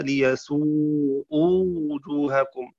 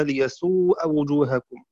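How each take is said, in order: First: ليسوءوا with a rounded u on the hamza then a long waw, slowly; ليسوءوا read liyasū'ū, hamza with damma plus waw. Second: ليسوء وجوهكم with an open a after the hamza and no final waw; ليسوء read liyasū'a, hamza with fatha, no waw. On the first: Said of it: "بضم الهمزة وواو بعدها". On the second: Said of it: "بفتح الهمزة دون واو". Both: Shown as a demonstration.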